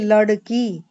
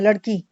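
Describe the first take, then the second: First: A short vowel and break follow the first syllable. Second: The first syllable runs straight into the second. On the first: "जो हम शुद्ध बोलेंगे वो क्या बोलेंगे" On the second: "लेकिन क्या करते हैं"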